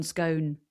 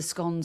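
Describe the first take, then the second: First: "scone" rhyming with bone; long o in "scone". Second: "scone" rhyming with gone; short o in "scone". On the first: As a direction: say "scone" as skone. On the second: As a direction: say "scone" as skon. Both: Shown as a demonstration. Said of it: "cause as much division".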